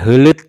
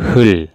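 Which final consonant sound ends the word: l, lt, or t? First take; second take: lt; l. First: Both the l and t sounds are pronounced. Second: Only an l sound ends the word. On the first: The speaker calls it wrong. "bukan hulut atau hut atau hut, salah ya" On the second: The speaker calls it right. "Dibaca itu hul"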